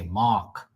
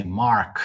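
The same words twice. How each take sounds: First: "Mark" without the R, like "Mahk"; local pronunciation. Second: "Mark" with the R clearly sounded; standard pronunciation. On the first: Showing what locals say instead, "Mark" as R-less "Mahk". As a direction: drop the R, long open vowel in "Mark". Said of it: "They say Mark". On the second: Showing what locals don't say, "Mark" with its R. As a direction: pronounce a full R in "Mark". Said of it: "They don't say Mark". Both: Shown as a demonstration.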